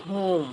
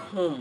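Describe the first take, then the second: First: "whom" with a long oo, "hoom"; correct pronunciation. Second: "whom" with a short vowel, "hum"; common mispronunciation. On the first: Teacher models the correct word, long-voweled "whom". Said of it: "এটা সঠিক উচ্চারণ হচ্ছে". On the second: Teacher shows learners their usual way, short "whom". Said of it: "আমরা বলি". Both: Shown as a demonstration.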